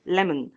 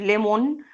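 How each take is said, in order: First: The second-syllable O is reduced, almost silent. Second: The second-syllable O is a full, clear vowel. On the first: The speaker calls it right. "الO هنا أهوّة تقريبًا ما اتنطقتش" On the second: The speaker calls it wrong. "مش lemon"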